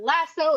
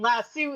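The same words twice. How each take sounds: First: It is said with an American pronunciation. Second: It is said with a British pronunciation. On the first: "the American way of pronouncing it" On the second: "the U K and Australian way of pronouncing it"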